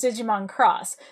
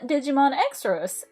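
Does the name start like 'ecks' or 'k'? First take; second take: k; ecks. First: The X is said as a 'k' sound. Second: The X is said as the letter name 'ecks'. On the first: The speaker calls it right. "the X in Digimon Cross Wars is a C" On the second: The speaker calls it wrong. "It is not Digimon Xros"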